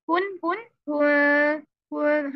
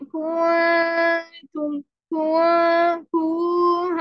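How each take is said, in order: First: कुन with a short कु moving straight to the nasal नून; correct quick kun. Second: कुंतुम with कु stretched long, slow; wrong drawn-out ku. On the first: Teacher modelling the right short कुन for students. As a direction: say कुन crisply, no stretch. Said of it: "हमने इसको पढ़ना है कुन". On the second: Teacher showing students the wrong long कु in कुंतुम. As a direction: hold the कु too long before the नून. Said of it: "कु को लंबा कर देते हैं हम". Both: Shown as a demonstration.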